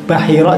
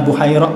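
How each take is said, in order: First: The name begins with 'Ba' and ends in 'hira'. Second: The name begins with 'Bu' and has three syllables. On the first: "dibaca Bahira juga boleh" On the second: "Bisa dibaca Buhairah boleh"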